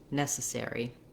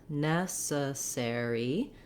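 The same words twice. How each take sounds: First: The word is said quickly. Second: The word is said slowly. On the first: "and then speeding up" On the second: "saying it slow"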